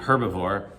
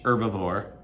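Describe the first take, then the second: First: The word starts with a clear H sound. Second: The word starts without an H sound. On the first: "I do herbivore" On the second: "Some people don't pronounce the H"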